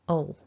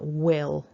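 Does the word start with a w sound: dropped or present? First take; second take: dropped; present. First: The w is dropped and the vowel is weak. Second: It begins with w and a short vowel. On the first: "we lose that W and our I becomes a weak schwa" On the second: "bring the lips together for w, another short I vowel, and then that dark owl sound"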